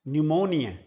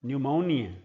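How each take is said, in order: No difference in how they are said.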